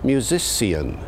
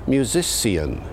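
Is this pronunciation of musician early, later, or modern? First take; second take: early; early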